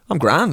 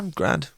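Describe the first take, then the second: First: It sounds cheerful and upbeat. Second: It sounds weary but making the best of it. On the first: The speaker is feeling great. "He's feeling good. The first one was he's on top" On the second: The speaker had a bad time but stays positive. "The second one was he had a bad morning, but he's looking on the positive"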